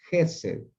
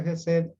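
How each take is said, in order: First: Gesed con el golpe de voz en GE, la sílaba inicial; acento en la primera sílaba. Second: Gesed con el golpe de voz en SED, la sílaba final; acento en la última sílaba. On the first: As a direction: di gesed como palabra llana, cargando GE y aflojando sed. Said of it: "esta sílaba va acentuada". (gesed acentuado en GE, la primera sílaba) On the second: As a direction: di gesed como palabra aguda, cargando SED. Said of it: "no se pronuncia gesed". (gesed con acento agudo en la sílaba final) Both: Shown as a demonstration.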